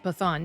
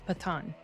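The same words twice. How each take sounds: First: The middle consonant is an English th sound. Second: The middle consonant is a plain t sound. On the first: The speaker calls it wrong. "I was wanting to say Pathan" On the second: The speaker calls it right. "it's Pathan"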